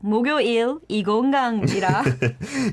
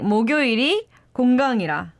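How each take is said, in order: First: The break comes before the syllable 이. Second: The break comes after the syllable 이. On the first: The speaker calls it wrong. "I think she said like" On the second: The speaker calls it right.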